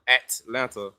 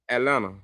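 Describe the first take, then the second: First: The T in the middle is clearly pronounced. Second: The T in the middle is not heard. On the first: This is not how locals say it. "I don't say at Atlanta, at Atlanta. That, that's not how we say it" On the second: This is how locals say it. "We say Atlanta. The T silent"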